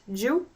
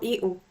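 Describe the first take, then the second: First: It starts with a hard j-like consonant. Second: It starts with a soft ee-like glide. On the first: The speaker calls it wrong. "No es you como con doble L" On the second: The speaker calls it right. "es como iu"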